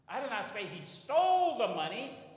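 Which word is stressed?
stole. The stress is on the word stole.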